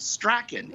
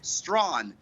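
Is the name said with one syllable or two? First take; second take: two; one. First: It is said in two syllables, like 'strack-an'. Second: It is said in one syllable, like 'strawn'. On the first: The speaker calls it wrong. "not Strachan" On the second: The speaker calls it right. "Strawn, not Strachan. It is Strawn"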